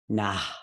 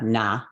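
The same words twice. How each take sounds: First: The word ends with an audible breathy puff. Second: The word ends plainly without a breathy puff. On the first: The speaker calls it right. "Sometimes it just says be breathy at the end of the word" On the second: The speaker calls it wrong. "so it's not"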